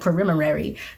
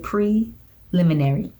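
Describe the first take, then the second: First: The word is said quickly and garbled. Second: The word is said slowly and carefully. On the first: The speaker calls it wrong. "I'll say something stupid like" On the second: The speaker calls it right. "So I have to say"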